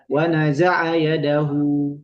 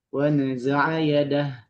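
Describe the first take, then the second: First: The last word ends with a lengthened hu sound. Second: The last word ends clipped on a silent h. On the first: The speaker calls it wrong. "Wa naza'a yadahu tidak" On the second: The speaker calls it right. "tetap bacanya adalah dengan mensukunkannya"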